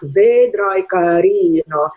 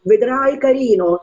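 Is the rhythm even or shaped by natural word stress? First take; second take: even; natural stress. First: The syllables are given an even, mechanical beat. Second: The syllables follow the natural stress of speech. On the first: The text's poetic meter is ignored. The speaker calls it wrong. "speak like a child in like 1, 2, 3" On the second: The text's poetic meter is felt. The speaker calls it right. "feeling the expression of the text"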